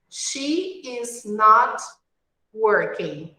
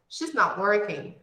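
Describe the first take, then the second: First: She and is are said as two full words. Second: She and is are merged into one short syllable.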